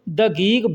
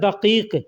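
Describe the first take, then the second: First: The consonants after the first are g sounds. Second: The consonants after the first are q sounds. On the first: This is how locals say it in everyday speech. "लेकिन बोलने के लिए लोग दगीग बोलते हैं" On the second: This is the written standard form. "लिखा जाता है दकीक"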